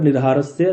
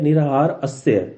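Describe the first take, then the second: First: The two parts are fused into one word. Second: The two parts are said separately.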